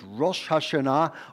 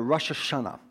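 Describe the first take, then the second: First: It is said with the Hebrew pronunciation. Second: It is said with the everyday vernacular pronunciation. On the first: "what they refer to as" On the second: "in the common vernacular"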